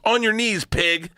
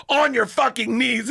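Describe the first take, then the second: First: Raised-pitch imitation of a commanding dominatrix; mock dominatrix order. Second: Slow, high-pitched imitation of an escalating order; insistent mock dominatrix. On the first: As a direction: give a brisk mock command. Acting out dominatrix's first order. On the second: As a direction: draw out the mock command forcefully. Dominatrix repeats order more forcefully.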